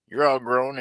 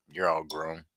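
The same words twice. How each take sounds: First: "You're all grown" hit high and loud; You're all grown louder and higher. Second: Said in the usual way. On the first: Real, not acted. Repeats the phrase louder and higher.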